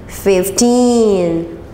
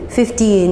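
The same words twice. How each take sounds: First: One syllable is stressed and clearly lengthened. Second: Both syllables sound flat and even. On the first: The speaker calls it right. "완전 다르게 들리게" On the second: The speaker calls it wrong. "우리나라 사람들은 항상 fifty, fifteen 이렇게 하니까"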